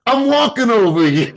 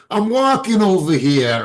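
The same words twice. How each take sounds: First: Put-on much higher, louder East Coast accent, laughing through it; a hammed-up East Coast accent, mocking in fun. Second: High, loud New Jersey accent, imitating a local friend. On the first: Retelling how Vernon copied the friend, laughing East Coast accent. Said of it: "in an East Coast accent". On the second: Telling the team how the Jersey friend talks, loud high New Jersey accent. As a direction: belt it out like a Jersey guy crossing the street, New Jersey accent mocked. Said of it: "his accent is deep".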